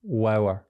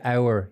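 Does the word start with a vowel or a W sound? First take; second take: W sound; vowel. First: The word starts with a W sound. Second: The word starts with a plain vowel sound.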